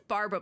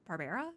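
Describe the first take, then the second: First: "Barbara" squeezed into two syllables, BAR-bruh. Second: "Barbara" in three syllables, BAR-bare-uh, questioning. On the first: Streamer recalling how she said the name, "Barbara" as BAR-bruh. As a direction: drop the middle vowel of "Barbara": BAR-bruh. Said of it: "I said Barbara before". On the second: Streamer testing another way to say the name, "Barbara" as BAR-bare-uh. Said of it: "I think it might be". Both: Shown as a demonstration.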